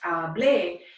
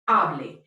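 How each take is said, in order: First: The stress is on the last syllable. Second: The stress is on the first syllable. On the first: I spoke. The speaker calls it wrong. "it's not pronounced hablé" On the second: A formal command to speak. The speaker calls it right. "it's pronounced hable"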